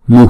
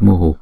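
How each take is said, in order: First: The word ends with only a light breath. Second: The final h is followed by an echoed u vowel. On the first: The speaker calls it right. "chúng ta chỉ đọc mu, chữ h nhỏ ngoài sau thôi là" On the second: The speaker calls it wrong. "trong bài chú này chúng ta không đọc mu"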